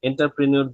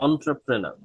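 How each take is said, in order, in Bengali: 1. এটা en দিয়ে শুরু হয় আর new-er দিয়ে শেষ হয়। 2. এটা on দিয়ে শুরু হয় আর ner দিয়ে শেষ হয়।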